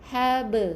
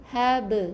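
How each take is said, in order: Both takes have the same delivery.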